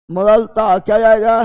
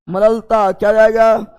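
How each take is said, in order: Both takes have the same delivery.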